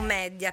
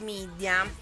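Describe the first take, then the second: First: It is pronounced as written, 'meh-dee-a'. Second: It is pronounced like English, 'mee-dee-a'.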